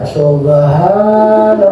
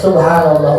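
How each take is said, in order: First: It is said slowly and drawn out. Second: It is said at a normal pace.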